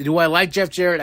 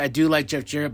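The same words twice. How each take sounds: First: "do I like" as a rhetorical question; self-posed question. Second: "do" stressed as a concession. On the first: Speaker weighing his view of a wrestler, asked as a question. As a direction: ask "do I like" of yourself, lightly lifted. Asks himself, then answers. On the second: Speaker conceding he likes the wrestler, stress on "do". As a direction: lean on "do" to answer yourself. Answers his own question. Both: Real, not acted.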